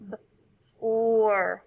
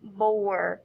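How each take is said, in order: First: "B", pause, then "or"; each sound of "B, or" said alone. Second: "Bore" joined as one word; "Bore" said whole as the final word; blended word. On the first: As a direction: split "B" from a held "or". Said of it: "Let's blend it again". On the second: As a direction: run "B" straight into "or" as "Bore". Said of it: "put those two syllables together". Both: Shown as a demonstration.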